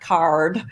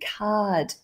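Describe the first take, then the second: First: It is said with an American accent. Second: It is said with an Australian accent.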